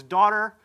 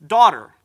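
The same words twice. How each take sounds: First: Said in the usual way. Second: Much louder second call of "daughter". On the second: Retold or imitated. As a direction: call "daughter" out loud across the crowd. Jesus calls the healed woman.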